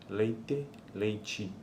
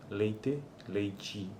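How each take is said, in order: Both takes have the same delivery.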